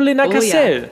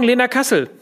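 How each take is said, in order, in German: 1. Der Nachname wird mit französischem Akzent ausgesprochen. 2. Der Nachname wird ganz normal deutsch ausgesprochen.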